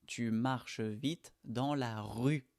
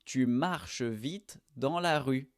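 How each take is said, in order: First: Slow repeat. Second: Slow model sentence. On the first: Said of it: "on dit rue". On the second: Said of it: "Marcher avec tu". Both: Shown as a demonstration.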